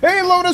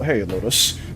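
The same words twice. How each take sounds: First: The greeting sounds loud and excited. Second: The greeting sounds calm and casual. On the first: "Instead of"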